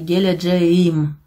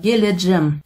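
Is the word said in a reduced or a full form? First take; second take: full; reduced. First: The ending is said in full, syllable by syllable. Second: The ending is shortened to one syllable. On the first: "Если прям сильно дословно хотите" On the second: "произносится как «геледжэм»"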